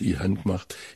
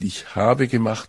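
First: It is said in Swabian dialect. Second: It is said in standard German.

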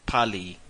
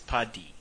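First: The middle consonant sounds like an L. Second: The middle consonant sounds like a D. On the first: The speaker calls it wrong. "me being [name] thought it was Tabo Pali" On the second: The speaker calls it right. "but it's Padi"

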